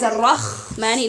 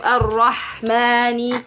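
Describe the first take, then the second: First: The h sounds like a rasping kh. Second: The h is a smooth breathy sound. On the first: The speaker calls it wrong. "they read it as" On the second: The speaker calls it right. "instead of"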